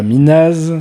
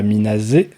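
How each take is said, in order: First: It ends on a z sound, no final vowel. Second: It ends with a z sound then 'é'. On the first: "C'est pas Minaz" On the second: "c'est pas Minazé"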